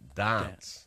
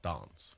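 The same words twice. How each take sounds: First: It is said in a New South Wales accent. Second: It is said in a South Australian accent. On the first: "New South Welshmen say dance" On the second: "not dance"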